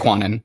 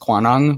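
First: The name ends with a plain n sound. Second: The name ends with a g sound.

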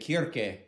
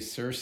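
First: The name is said the Greek way. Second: The name is said the Wisconsin way.

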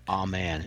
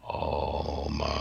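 First: It is said in a plain, sincere tone. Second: It is said in a mocking, eerie tone.

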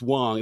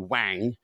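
First: The name is said the American way. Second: The name is said the British way. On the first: "It's Wang. They try and make it sound slightly" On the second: "which is the way the English would say it"

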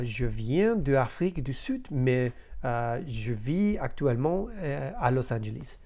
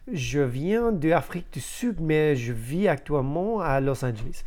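First: It is broken up by hesitant pauses. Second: It flows smoothly without any pauses.

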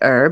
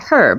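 First: The word starts with a vowel, h silent. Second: The word starts with a clearly sounded h. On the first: This is how Americans say it. "you say herb" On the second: This is how the British say it. "we say herb because it's got a fucking H in it"

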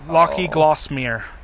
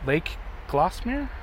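First: The first word is pronounced as two syllables, Locky. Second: The first word is pronounced as one syllable, Lake. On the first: The speaker calls it wrong. "one person they had reading it pronounces a couple times Lake. They say Locky" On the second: The speaker calls it right. "Lake Glossmere? It's a lake"

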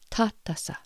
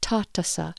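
First: The T sounds soft, tongue behind teeth. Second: The T sounds hard and sharp. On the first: The speaker calls it right. "So the Pawnee T is a soft T. Your tongue needs to be behind your teeth" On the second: The speaker calls it wrong. "So this is not tatasa"

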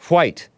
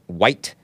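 First: It starts with a breathy hw sound. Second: It starts with a plain w sound. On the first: The speaker calls it right. "WH sound" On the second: The speaker calls it wrong.

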